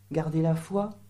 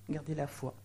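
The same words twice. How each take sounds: First: Said in the usual way. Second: Garder la foi repeated much softer, falling; quiet falling repeat of garder la foi; soft echo. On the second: Shown as a demonstration. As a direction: echo it back quietly to let it sink in.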